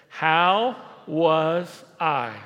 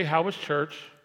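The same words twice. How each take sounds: First: Chanted, drawn-out, loud, every word weighted in How was I; chanted, lead the crowd slowly through How was I; slow emphatic chant. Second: Said in the usual way. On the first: Shown as a demonstration. Chanted, pastor leads the congregation in repeating, slow and loud. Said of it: "Everybody say that with me". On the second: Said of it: "You don't say".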